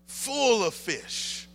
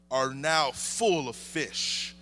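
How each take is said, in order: First: "full of fish" repeated higher and slow; full of fish lifted. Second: Said in the usual way. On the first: Acted. Preacher repeating the full nets, higher and slow. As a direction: lift "full of fish" up high, drawn out.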